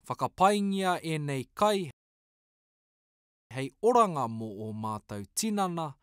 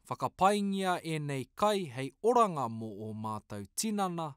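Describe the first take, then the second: First: It is said at a slow pace. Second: It is said at a fast pace.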